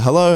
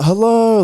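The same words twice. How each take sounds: First: Said in the usual way. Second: Much higher, louder retold hello; eagerly awaiting hello. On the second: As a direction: answer as if you've waited all night for this call. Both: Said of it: "I've been waiting for you to call".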